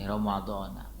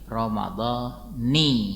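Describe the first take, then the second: First: The word ends with an 'a' vowel. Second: The word ends with an 'i' vowel. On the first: The speaker calls it wrong. "Ramadhana lagi Ramadhana" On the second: The speaker calls it right. "balik lagi jadi kasroh yang tadinya fathah"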